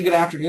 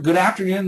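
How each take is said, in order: First: It is said with moderate energy. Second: It is said with higher energy.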